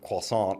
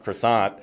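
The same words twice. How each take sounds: First: It is said with a French accent. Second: It is said with a South Carolina accent.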